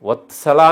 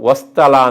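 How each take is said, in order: First: The t sound comes before the s. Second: The t sound comes after the s. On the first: The speaker calls it right. "ವತ್ಸಲ ಅಂತ ಹೇಳಬೇಕೆ" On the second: The speaker calls it wrong. "ವಸ್ತಲ ಅಂತ ಹೇಳಬಾರದು"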